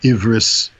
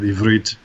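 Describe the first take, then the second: First: The word ends with an s sound. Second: The word ends with a t sound.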